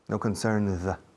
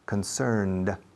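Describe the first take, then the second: First: The final D is soft and barely heard. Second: The final D is a hard, clear stop. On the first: The speaker calls it wrong. "como se dice aquí, Madrid" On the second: The speaker calls it right. "La D suena en inglés. Es una D dura"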